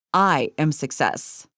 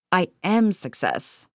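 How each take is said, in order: First: "I" pressed hard and slow, the rest falling away; stress on I. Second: "am" pressed hard and slow, "I" and "success" kept light; stress on AM. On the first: Teacher demonstrates an affirmation, stress on "I". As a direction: lean on the word "I", slowly. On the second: Teacher shows the second take, stress on "am". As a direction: lean on "am" and let the line fall. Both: Shown as a demonstration. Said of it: "places the emphasis on a different word each time".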